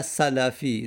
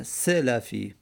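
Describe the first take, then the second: First: سلفی with an 'a' in the first syllable, SA-la-fi; stretched SA-la-fi for سلفی; wrong vowel demonstrated. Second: سلفی with an 'e' in the first syllable, SE-la-fi; deliberate, drawn-out SE-la-fi for سلفی; correct vowel demonstrated. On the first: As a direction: say سلفی slowly as salafi, opening on 'sa'. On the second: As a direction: say سلفی slowly as selafi, opening on 'se'. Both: Shown as a demonstration. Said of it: "نه سلفی".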